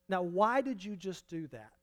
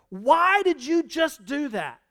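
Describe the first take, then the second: First: It sounds like a genuine, inviting question. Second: It sounds like an accusing exclamation.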